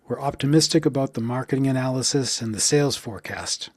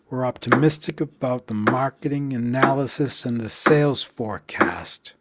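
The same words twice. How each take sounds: First: It is spoken at a normal pace. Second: It is spoken slowly, beat by beat.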